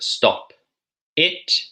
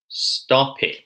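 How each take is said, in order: First: The two words are said separately. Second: The p joins smoothly onto the following vowel. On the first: The speaker calls it wrong. "instead of" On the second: The speaker calls it right. "how about"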